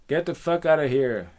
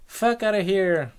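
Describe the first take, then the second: First: Loud, raised dismissal; forceful, irritated shout; angry rejection. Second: High, loud echo of his words; high-pitched helpless repeat; echoing nymph. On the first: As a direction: send the admirer packing. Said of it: "And he goes". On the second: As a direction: parrot it back high and wailing. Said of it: "And she goes". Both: Acted.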